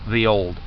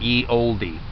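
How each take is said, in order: First: The first word begins with a 'th' sound. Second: The first word begins with a 'y' sound. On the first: The speaker calls it right. "It literally is pronounced correctly" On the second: The speaker calls it wrong. "ye oldie is wrong"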